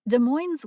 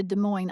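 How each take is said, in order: First: Des Moines with a voiced z sound at the end; local pronunciation. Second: Des Moines ending on N, no S sound; silent final S. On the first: Narrator shows how Washington locals say it, Des Moines with the final S sounded. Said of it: "pronounced by locals with the S". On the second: Narrator contrasts the Iowa city, Des Moines said without the final S. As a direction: say Des Moines as duh-MOYN. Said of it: "it is pronounced without the final S". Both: Shown as a demonstration.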